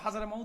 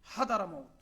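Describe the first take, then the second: First: The second syllable begins with a z sound. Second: The second syllable begins with a d sound. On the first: This is how it comes out in quick speech. "খুব দ্রুত বলার সময় হাজারা মাউত হয়ে যায়" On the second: This is the actual form of the name. "কিন্তু আসলে হচ্ছে হাদারা মাউত"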